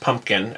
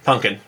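First: The middle keeps a clear 'mp' sound. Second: The middle is reduced to an 'n' sound. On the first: The speaker calls it right. "pumpkin is pronounced pumpkin" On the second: The speaker calls it wrong. "and not punkin"

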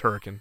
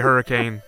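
First: It is said with the local pronunciation. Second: It is said with the standard pronunciation. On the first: The speaker calls it right. "No, it's Hurricane" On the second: The speaker calls it wrong. "if you say Hurricane, they correct you"

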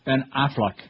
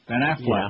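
First: The name is said slowly, each sound clearly separated. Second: The name is said casually, sounds running together.

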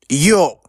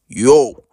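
First: It is said in a childish voice. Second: It is said in a grown-up voice.

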